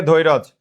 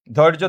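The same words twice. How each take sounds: First: ধৈরজ slowly as "dhoi-roj"; inserted vowel. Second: Said in the usual way. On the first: Shown as a demonstration. Teacher repeats it for students, ধৈরজ as "dhoi-roj". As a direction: add an "o" after the r in ধৈরজ. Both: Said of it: "এই র এর সাথে একটা অ আসছে".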